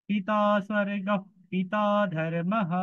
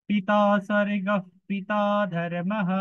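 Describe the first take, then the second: The two takes are said the same way.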